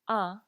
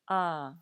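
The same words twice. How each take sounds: First: The vowel is short. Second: The vowel is long. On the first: "instead of a" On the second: "what it's doing is lengthening the sound"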